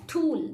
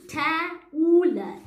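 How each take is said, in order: First: Said in the usual way. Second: "ta-ool" split into the first consonant and a long "ool"; segmented phonics "ta-ool"; sounded out. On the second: Shown as a demonstration. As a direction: break tool into "ta" and "ool". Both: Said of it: "So when I use O U".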